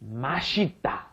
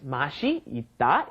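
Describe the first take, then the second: First: The phrase is said quickly as one word. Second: The phrase is said slowly with separate words. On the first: "when it's pronounced very quickly, it becomes" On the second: "맛이 있다 is the original phrase"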